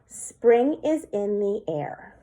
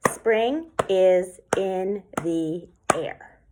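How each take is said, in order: First: Said in the usual way. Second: Each syllable of "Spring is in the air" clapped apart, slow. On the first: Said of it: "an example of a haiku that I wrote is". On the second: Shown as a demonstration. Teacher claps the syllables for the class, slow and even. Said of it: "So if we clap that out".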